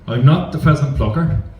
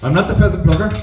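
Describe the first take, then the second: First: It is said very slowly. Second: It is said really fast.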